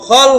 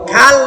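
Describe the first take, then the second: First: The vowel after 'kh' is a rounded 'o'. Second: The vowel after 'kh' is an open 'a'. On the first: The speaker calls it right. "খল হবে" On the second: The speaker calls it wrong. "খাল না"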